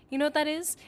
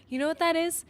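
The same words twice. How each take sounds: The two takes are said the same way.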